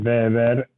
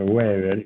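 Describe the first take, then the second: First: The name is said with a German pronunciation. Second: The name is said with a Spanish pronunciation. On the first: "castellanizamos el Weber" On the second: "por Weber y está bien dicho de las dos maneras"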